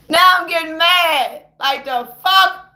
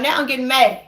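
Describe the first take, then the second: First: Slow, drawn-out rising anger; getting mad. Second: Annoyance starting, kept fairly low; restrained, simmering irritation; getting mad. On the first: Ranter repeats it as the temper builds, getting mad. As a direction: stretch the words with mounting anger. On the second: Ranter admits the talk is winding them up, getting mad. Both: Real, not acted.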